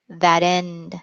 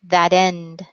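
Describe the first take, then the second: First: The T is a soft, quick tap. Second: The same.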